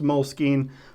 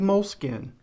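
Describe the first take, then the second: First: The word ends with a 'skeen' sound. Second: The word ends with a plain 'skin' sound. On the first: This is the accepted standard pronunciation. The speaker calls it right. "I know it's pronounced moleskine" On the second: This is the local West Texas way of saying it. The speaker calls it wrong. "I say moleskin"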